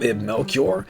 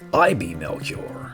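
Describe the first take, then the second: First: The first name is said as one word. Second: The first name is said as two letters. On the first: The speaker calls it right. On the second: The speaker calls it wrong.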